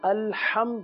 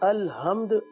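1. h ایک مضبوط حلقی آواز ہے۔ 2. h ایک سادہ، ہلکی آواز ہے۔ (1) "الحمد ہی ادا ہو" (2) "الحمد ادا نہ ہو، یعنی ہا، جیسے ہاتھی کے لیے جو ہا استعمال ہوتا ہے"

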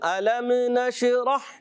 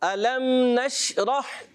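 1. m اور sh کی آوازوں میں گونجدار قلقلہ آتا ہے۔ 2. m اور sh کی آوازیں ہموار ادا کی جاتی ہیں۔ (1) "بعض میم کو بھی لا دیتے ... یہ بھی غلط ... میم میں بھی قلقلہ کیا, نون شین میں بھی قلقلہ" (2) "ایسا نہیں کرنا"

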